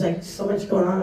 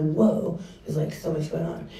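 First: Said in the usual way. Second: Softer, dropping away, a bit overwhelmed; a hushed, swamped sigh of a line; overwhelmed whoa. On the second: Retold or imitated. Pastor acts out feeling swamped by people, softer, overwhelmed. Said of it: "I'm like".

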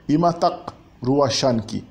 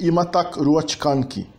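First: Slow model phrase, "ruachanki" as rua-shan-ki; colloquial Quechua. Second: "ruachkanki" with the full ch-k cluster; slow model phrase, "ruachkanki" as ruach-kan-ki; formal Quechua. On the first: Teacher repeating the example greeting, colloquial pronunciation of "ruachanki". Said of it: "usada mais comumente na linguagem coloquial". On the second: Teacher contrasting with spoken usage, formal pronunciation of "ruachkanki". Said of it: "mas soa um pouco mais formal". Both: Shown as a demonstration.

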